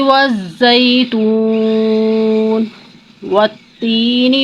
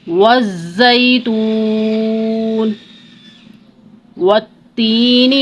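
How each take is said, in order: No difference in how they are said.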